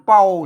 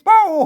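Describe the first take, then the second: First: The syllable is said with a low tone. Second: The syllable is said with a falling tone. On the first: "เสียงเอก" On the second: "เสียงโทพิเศษ"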